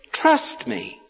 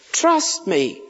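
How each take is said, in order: First: Whispered. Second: Said in the usual way. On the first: Shown as a demonstration. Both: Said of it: "He wants us to trust him".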